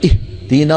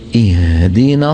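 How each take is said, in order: First: The h is pushed out with a heavy burst of breath. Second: The h is soft with moderate breath. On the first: The speaker calls it wrong. "بتلاقي فض الرئتين من الهواء وتعب" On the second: The speaker calls it right. "بوضع وسط"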